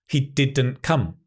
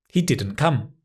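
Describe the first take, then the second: Both takes have the same delivery.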